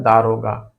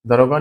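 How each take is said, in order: First: दारोगा, long aa, lower pitch; correct form दारोगा. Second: दरोगा with short first a; wrong form दरोगा. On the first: Teacher answering own question, long aa in दारोगा. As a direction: lengthen the first vowel of दारोगा, pitched down. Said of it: "क्या होता है". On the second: Teacher repeating what is not correct, short a in दरोगा. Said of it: "दरोगा नहीं होता". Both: Shown as a demonstration.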